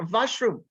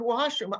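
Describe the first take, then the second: First: "Washroom" with a Sri Lankan v for w; imitated Sri Lankan accent. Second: Said in the usual way. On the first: Teacher quoting her beginner student from Sri Lanka, imitated accent. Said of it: "She didn't say one thing". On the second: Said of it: "I heard".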